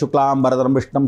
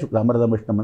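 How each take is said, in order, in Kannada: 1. ಮಂತ್ರವನ್ನು ಜೋರಾಗಿ, ಬಾಯಿಬಿಟ್ಟು ಹೇಳಲಾಗುತ್ತದೆ. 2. ಮಂತ್ರವನ್ನು ಬಹುತೇಕ ಶಬ್ದವಿಲ್ಲದೆ ಗುನುಗಲಾಗುತ್ತದೆ. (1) "ಜೋರಾಗಿ ಹೇಳಂಗಿಲ್ಲ" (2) "ಸೌಂಡ್ ಇಲ್ಲದೆ"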